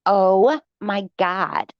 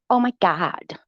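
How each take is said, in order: First: Very slow, drawn-out mock gasp; dramatic mock. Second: Quieter, lightly mocking sigh of drama; soft mock. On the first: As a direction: ham up her drama, stretching every word. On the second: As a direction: toss it off under your breath. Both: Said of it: "She is so dramatic".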